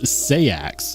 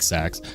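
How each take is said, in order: First: The word is said as two syllables. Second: The word is said as one short syllable. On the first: This is an alternative way to say it. "another way to pronounce it is sayax" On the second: This is the common way people say it. "I just started pronouncing it like sax"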